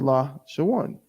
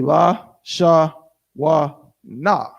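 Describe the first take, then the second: First: It is said as three syllables. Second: It is said as four separate syllables. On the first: The speaker calls it right. "We need it to be" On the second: The speaker calls it wrong. "But it's not, because that's four syllables"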